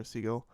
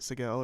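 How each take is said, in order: First: Siegel said as SEE-gull, stress up front; first syllable stressed. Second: Siegel said as sih-GELL, stress on the end; second syllable stressed. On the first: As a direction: say Siegel with long ee, unstressed ending. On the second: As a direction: say Siegel with short first vowel, stressed GELL. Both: Shown as a demonstration. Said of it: "I never know how to pronounce it".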